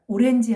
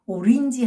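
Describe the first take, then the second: First: 오렌지 with a clear Korean 렌 vowel; 한국식 orange 발음. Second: 오린지 with 린 in place of 렌; English-imitating orange. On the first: Retold or imitated. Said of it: "오렌지 하니까 못 알아듣고". (오렌지를 한국식 '렌'으로 또박또박) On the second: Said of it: "하니까 알아듣더라". (오린지, '렌' 대신 '린'으로 영어 흉내)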